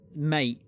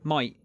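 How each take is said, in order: First: The vowel sounds like 'ay' in 'day'. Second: The vowel sounds like 'eye' in 'my'. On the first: "I E in mate" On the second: "southern England accents have the tendency to turn I E in mate into I, A I"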